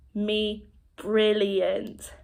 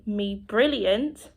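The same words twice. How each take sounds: First: Very slow, stretched-out words; expressive sign demonstration. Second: Said in the usual way. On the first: Shown as a demonstration. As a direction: draw out each sign for the learner. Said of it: "it's your facial expression that helps". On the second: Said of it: "If you want to say".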